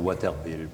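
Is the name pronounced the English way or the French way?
French. The name is pronounced the French way. This is how French speakers said it, to stand apart. "nous, on disait Waterville pour se distinguer"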